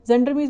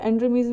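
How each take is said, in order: First: The word begins with a consonant sound. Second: The word begins with a vowel sound. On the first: "जेंड्रमीज भी बोल सकते हो" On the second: "एक्स silent भी करते हैं कई"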